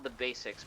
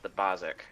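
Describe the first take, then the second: First: The name is said like the word basics. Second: The name is said with an 'o' vowel, Bozic. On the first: This is how the name is spelled. The speaker calls it wrong. "spelled the Basics" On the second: This is how the band actually says it. The speaker calls it right. "but pronounced the Bozic"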